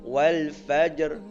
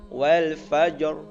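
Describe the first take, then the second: The two takes are said the same way.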